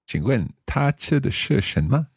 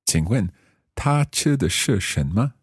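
First: The sentence is spoken at normal speed. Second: The sentence is spoken slowly. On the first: "we'll do it a little more quickly" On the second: "We'll do this quite slowly, first of all"

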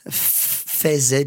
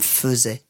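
First: The first vowel is a full open 'eh'. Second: The first vowel is a weak 'uh' sound. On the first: This is how the spelling would suggest. "A-I would normally be pronounced in French, of course, as E" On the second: This is how it is actually said today. "faisait became faisait"

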